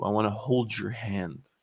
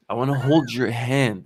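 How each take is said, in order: First: Slow, gentle offer; slow tender. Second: Said in the usual way. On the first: Pretend. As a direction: say it softly and slowly.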